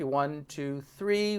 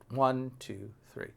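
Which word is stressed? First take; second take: three; one. First: The stress is on three. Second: The stress is on one.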